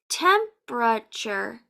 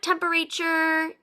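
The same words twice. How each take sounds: First: The word is said with three syllables. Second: The word is said with more than three syllables. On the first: The speaker calls it right. "This word has three syllables" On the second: The speaker calls it wrong. "It's not temperature"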